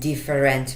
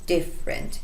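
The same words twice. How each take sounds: First: Every syllable, including the middle one, is pronounced. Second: A middle syllable is dropped and silent. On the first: The speaker calls it wrong. "اینجا دیگه نمیگن different" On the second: The speaker calls it right. "برای همون میگن اینجا سایلنت شده"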